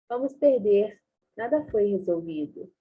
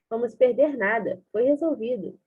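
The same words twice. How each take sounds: First: The pause comes right after 'perder'. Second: The pause comes right after 'nada'. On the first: They will lose and nothing was solved. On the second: They will lose nothing and it was solved.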